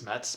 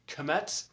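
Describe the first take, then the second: First: The K is silent at the start. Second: The K is sounded at the start. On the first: "technically it's Metz" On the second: "a lot of people pronounce the K"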